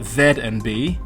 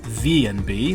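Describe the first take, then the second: First: The first letter is said as 'zed'. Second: The first letter is said as 'zee'. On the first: "I'm saying Z N B ... as a Brit" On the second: "it does sound better as Z N B"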